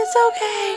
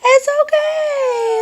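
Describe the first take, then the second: First: High gentle cooing reassurance. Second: Very high, loud, slow sing-song; stretched high cooing reassurance. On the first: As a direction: coo it again up high to settle her. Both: Real, not acted. Soothing a fussing baby.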